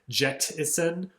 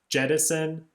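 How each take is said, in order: First: The middle consonant is a crisp, clearly released t. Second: The middle consonant is softened, like a quick tap. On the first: It does not rhyme with medicine. "if it was really enunciated" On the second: It rhymes with medicine in casual speech. "you just kind of have that stop there with the tongue to the roof of the mouth"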